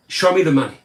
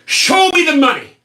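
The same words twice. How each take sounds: First: Said in the usual way. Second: Higher, louder greedy demand; mock greedy shout. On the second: Shown as a demonstration. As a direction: bellow it like a greedy politician.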